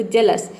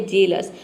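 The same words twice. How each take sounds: First: जलस with a short a in the first syllable, like "jul"; jealous with a. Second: जेलस with a clear e in the first syllable, like "jel"; jealous with e. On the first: Teacher showing students जलस with short a. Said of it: "तो आपने pronounce किया जलस". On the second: Teacher showing students जेलस with e. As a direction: say जेलस, first vowel a crisp e. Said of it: "जैसे आपने pronounce किया जेलस". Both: Shown as a demonstration.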